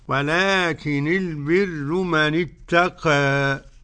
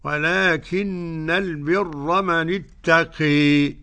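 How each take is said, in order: First: The final vowel leans slightly toward e. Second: The final vowel leans strongly toward e. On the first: "ورش له الفتح والتقليل" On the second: "حمزة والكسائي وخلف العاشر بالإمالة"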